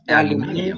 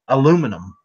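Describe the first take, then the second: First: It is said the British way. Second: It is said the American way. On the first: "Over there, it's not aluminum; it's aluminium" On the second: "we'll say aluminum"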